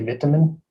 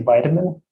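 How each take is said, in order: First: It is said the British way. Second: It is said the American way. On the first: "In England, England, they say vitamin" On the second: "in America, we say vitamin"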